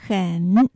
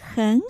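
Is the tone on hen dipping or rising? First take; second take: dipping; rising. First: The word hen has a low dipping tone. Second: The word hen has a rising tone. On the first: "很三声と発音します" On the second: "前の很のところを2 声と発音します"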